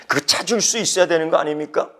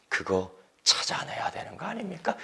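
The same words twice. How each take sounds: First: Said in the usual way. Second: 아닙니까 whispered with a falling end; whispered question. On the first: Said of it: "follows the whispered take". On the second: Shown as a demonstration. Pastor urging the congregation, whispered. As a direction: lean in and whisper the challenge. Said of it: "repeated aloud after whisper".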